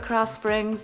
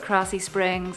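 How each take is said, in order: First: Krause is pronounced the non-Texan way. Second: Krause is pronounced the local Texan way. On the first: The speaker calls it wrong. "I call it" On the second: The speaker calls it right. "they call it"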